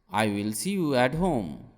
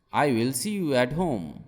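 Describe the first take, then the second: No difference in how they are said.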